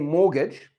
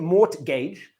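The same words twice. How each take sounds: First: The T sound is silent. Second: The T sound is pronounced. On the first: The speaker calls it right. "we've kind of dropped that T" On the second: The speaker calls it wrong. "we don't say mortgage"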